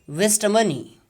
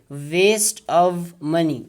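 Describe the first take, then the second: First: The v sound in 'of' is left out. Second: The v sound in 'of' is pronounced. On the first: "Only shava sound will be used and this v will be dropped" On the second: "its a phonetic transcription is v"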